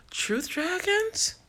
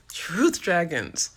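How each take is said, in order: First: High, slow, delighted reading of the name. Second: Said in the usual way. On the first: Real, not acted. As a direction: stretch the name out, thrilled by it. Reads out a name from comments.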